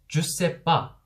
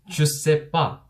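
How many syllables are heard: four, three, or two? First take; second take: three; three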